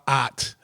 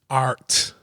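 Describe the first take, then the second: First: It is said with a Boston accent. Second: It is said without a Boston accent. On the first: The speaker calls it wrong. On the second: The speaker calls it right.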